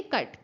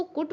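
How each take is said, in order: First: "कट" with a short "uh" vowel; one short syllable "कट", vowel as in cup; correct vowel. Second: "कुट" with the "oo" of put; wrong vowel. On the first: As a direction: say "कट" to rhyme with but. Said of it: "नहीं, आप इसको बोलेंगे कट". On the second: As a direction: misread cut as "कुट", rhyming with foot. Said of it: "क्या आप इसको कुट बोलेंगे". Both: Shown as a demonstration.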